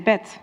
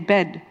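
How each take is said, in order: First: The final consonant is voiceless, like a t. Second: The final consonant is voiced, like a d. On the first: "in Dutch we say bed" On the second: "in English we say bed"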